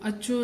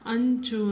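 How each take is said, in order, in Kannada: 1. ಇದನ್ನು ಮೂಗಿನ ಧ್ವನಿ ಇಲ್ಲದೆ, ch ಅನ್ನು ಎರಡು ಬಾರಿ ಹೇಳಲಾಗುತ್ತದೆ. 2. ಇದನ್ನು ch ಗೆ ಮೊದಲು ಮೂಗಿನ ಧ್ವನಿಯೊಂದಿಗೆ ಹೇಳಲಾಗುತ್ತದೆ. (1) "ಅಂಚು ಅಚ್ಚು ಅಂತ ಓದ್ಬಾರ್ದು" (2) "ಇಲ್ಲಿ ಮಧ್ಯ ಅನುಸ್ವಾರ ಇದೆ, ಹಾಗಾಗಿ ಇದನ್ನ ನಾವು ಅಂಚು ಅಂತ ಓದ್ಬೇಕು"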